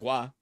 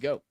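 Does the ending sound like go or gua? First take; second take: gua; go. First: The ending sounds like gua. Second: The ending sounds like go. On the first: The speaker calls it wrong. "It's not gua" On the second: The speaker calls it right. "It's go"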